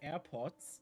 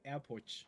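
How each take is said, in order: First: The R is followed by a plain S sound. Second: The R and S merge into an SH sound. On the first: "some Swedes cannot say airports" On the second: "They they say airport"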